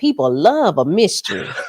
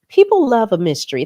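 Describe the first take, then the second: First: It is said in his natural voice. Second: It is said in a put-on Vicky voice.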